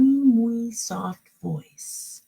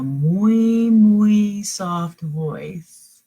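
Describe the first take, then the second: First: Said in the usual way. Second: Slow whispered soft voice. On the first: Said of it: "it says he began to sing". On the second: Shown as a demonstration. Reader showing the kids what a soft voice sounds like, whispering. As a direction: whisper it to show softness. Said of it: "Yeah, very soft".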